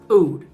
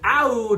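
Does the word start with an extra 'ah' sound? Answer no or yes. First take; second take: no; yes. First: The word starts without an extra 'ah' sound. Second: The word starts with an extra 'ah' sound. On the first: The speaker believes this is correct. "but I believe it is still pronounced Oud" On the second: Other people say it this way. "I've heard some people pronounce it Oud Lemon Mint because they spell it with an A"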